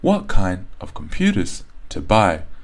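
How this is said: Stressed and unstressed words alternate up and down. The speaker calls it right.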